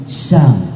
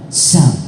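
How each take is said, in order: The two takes are said the same way.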